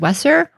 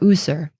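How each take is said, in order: First: The word begins with a W sound. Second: The word begins with a U sound. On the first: "is more of a W sound" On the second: "like an U sound"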